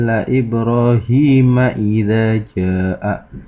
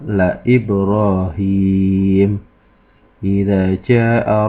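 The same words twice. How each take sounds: First: It runs on without stopping after Ibrahim. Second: It stops after Ibrahim before continuing. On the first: The speaker calls it wrong. "Tidak boleh dibaca" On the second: The speaker calls it right. "Harus dibaca waqaf"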